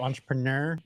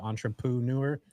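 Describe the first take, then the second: First: The middle syllable does not sound like 'poo'. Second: The middle syllable sounds like 'poo'. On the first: "who says it like that" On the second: "I say poo in the middle"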